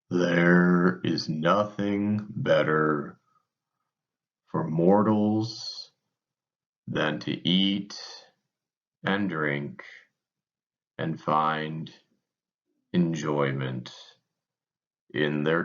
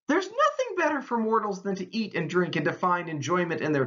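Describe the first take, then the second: First: It is read in a slow, gloomy, mopey voice. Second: It is read in a bright, cheerful tone. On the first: Enjoying life is a resigned consolation. "my Eeyore voice" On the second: Enjoying life is a hopeful gift. "what's the right way of reading this?"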